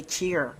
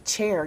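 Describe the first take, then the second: First: "cheer" for chair, rhyming with ear; dialect pronunciation. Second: "chair" with an open "air" vowel; careful standard pronunciation. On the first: Schoolmate correcting her speech, dialect pronunciation "cheer" for chair. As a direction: shift the vowel so chair comes out "cheer". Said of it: "You're supposed to say cheer". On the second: Quoting a schoolmate's correction, careful standard pronunciation of "chair". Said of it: "You're not supposed to say chair". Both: Retold or imitated.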